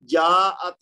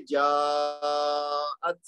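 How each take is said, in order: First: Said in the usual way. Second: जाअत with the alif drawn out long and slow; long madd reading. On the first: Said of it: "जाअत नहीं पढ़ेंगे". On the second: Shown as a demonstration. Teacher showing students the long madd, slowly stretching जाअत. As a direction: stretch the vowel in जाअत well beyond two counts. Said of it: "अब हम पढ़ेंगे जाअत".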